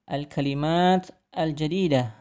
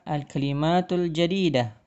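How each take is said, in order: First: Both words end without a final vowel. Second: Only the first word keeps a linking vowel. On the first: This is how it is read aloud. "dibaca menjadi" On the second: This is another way to read it aloud. "atau bisa juga"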